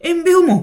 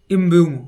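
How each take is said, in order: First: এমবিউমো called out high and loud, em-bi-u-mo; careful name pronunciation. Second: এমবিউমো said lower, as the final word of the call; a commentator's settled take on এমবিউমো; announced name. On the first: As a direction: try out the name এমবিউমো with a loud, rising call. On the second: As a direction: land এমবিউমো as the scorer's name, low and firm. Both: Shown as a demonstration. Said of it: "ঠিকঠাক উচ্চারণ করছি তো".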